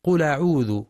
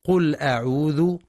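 First: "قل أعوذ" run together as qula'udhu, hamza dropped; naql reading. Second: "قل أعوذ" mistakenly linked, hamza weakened; hamza as wasl. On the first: Teacher showing a non-Hafs reading, "قل أعوذ" as qula-udhu. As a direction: move the hamza's vowel onto lam in "قل أعوذ". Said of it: "على غير رواية حفص بالنقل". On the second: Teacher showing a faulty reading, "قل أعوذ" linked. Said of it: "كأنها همزة وصل". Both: Shown as a demonstration.

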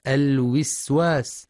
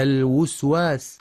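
First: الوسواس with a kasra on the first waw; wrong kasra. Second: الوسواس with a damma on the first waw; wrong damma. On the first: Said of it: "بكسر الواو الأولى". (الوسواس بكسر الواو، خطأ) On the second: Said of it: "أو ضمها الوسواس". (الوسواس بضم الواو، خطأ) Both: Shown as a demonstration.

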